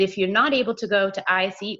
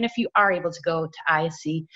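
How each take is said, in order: First: "not" carries the contrast; stress on NOT. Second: "are" carries the contrast; stress on ARE. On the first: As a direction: lean on "not" as the key word. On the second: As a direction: lean on "are" against the negative. Contrasts able with not able. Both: Real, not acted.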